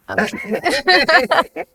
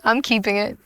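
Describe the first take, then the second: First: I'm keeping it, drawn out high and slow; high, slow sing-song repeat; playful high sing-song. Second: Said in the usual way. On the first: Shown as a demonstration.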